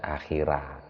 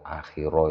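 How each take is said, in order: First: The r is light, with a thin vowel. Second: The r is heavy, with a rounded vowel. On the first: The speaker calls it wrong. "Bukan akhira, akhira tarkik" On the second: The speaker calls it right. "akhiro itu bacaan tafkhim"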